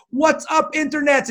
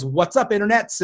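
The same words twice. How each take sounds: First: Much higher, mock-shouted German accent at no great volume; mock German-accented yell. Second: Said in the usual way. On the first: Fan hailing the podcaster with his catchphrase, imitated German-accented yell. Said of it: "he yelled at the top of his lungs". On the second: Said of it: "my stupid opening is always".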